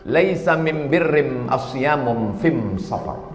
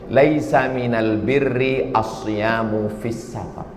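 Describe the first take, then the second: First: It uses Himyari Arabic with the am- article. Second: It uses standard Arabic with the al- article.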